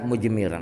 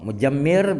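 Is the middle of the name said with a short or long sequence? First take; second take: short; long. First: It has no vowel after j and a single m. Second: It has a vowel after j and a doubled m. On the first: "Jimnya sukun" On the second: "bi fathil jim wa tasydidil mim"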